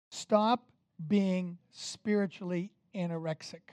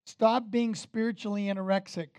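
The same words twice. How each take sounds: First: "Stop" set apart, then a pause before the rest; "Stop" rising alone, "being spiritually anorexic" slowly spaced out; deliberate repetition. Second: Said in the usual way. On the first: Shown as a demonstration. Repeats the point for emphasis.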